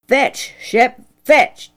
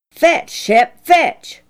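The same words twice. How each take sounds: First: A lightly voiced father calling the dog, firm; father's command. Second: "Fetch" pushed higher and louder, an impatient repeat; father losing patience with the dog; impatient command. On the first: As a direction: call "Fetch" out to the dog like a farmer. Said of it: "Dad ordered". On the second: Acted. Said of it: "What's the matter with this dog tonight?".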